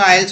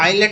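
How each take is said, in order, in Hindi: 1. शब्द 'lts' आवाज़ पर खत्म होता है। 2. शब्द 'let' आवाज़ पर खत्म होता है। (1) "आइल्स होता है" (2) "आइलेट नहीं होता"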